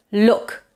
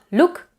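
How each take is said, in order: First: "look" with a lax, short English vowel; correct short vowel. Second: "look" with a tight, backed vowel, rising; wrong vowel. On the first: Teacher modelling look for learners, correct short vowel. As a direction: say "look" with a relaxed short u, falling. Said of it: "but look". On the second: Teacher showing learners the vowel to avoid in look, wrong vowel. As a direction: say "look" with a too-tense oo, as the mistake. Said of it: "Not look". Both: Shown as a demonstration.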